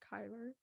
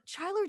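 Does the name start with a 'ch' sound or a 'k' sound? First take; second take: k sound; ch sound. First: The name starts with a 'k' sound. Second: The name starts with a 'ch' sound. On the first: The speaker calls it right. "she said Kyler" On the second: The speaker calls it wrong. "the Chyler did really good"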